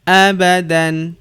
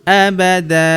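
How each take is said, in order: First: The word ends with a short vowel and n. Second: The word ends with a lengthened vowel, no n. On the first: The reading continues without stopping. "Abadan tanwin" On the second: The reader stops at this word. "abada dan dipanjangkan dua harokat"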